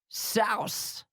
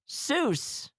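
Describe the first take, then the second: First: The vowel sounds like the one in 'house'. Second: The vowel sounds like the one in 'goose'. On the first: This is how the family says the name. The speaker calls it right. "it is Souse" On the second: This is how most people say the name. The speaker calls it wrong. "Many people think that Doctor Seuss is pronounced Seuss"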